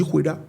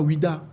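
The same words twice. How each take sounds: First: Oueda said with a breathy kh onset, as khweh-da; right name Oueda. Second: Ouida said the common way, as oo-EE-da; wrong name Ouida. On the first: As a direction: Oueda with "weh" in place of "wee". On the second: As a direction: Ouida with the usual "wee-da" vowels. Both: Shown as a demonstration. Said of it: "on ne dit pas Ouida, on dit Oueda".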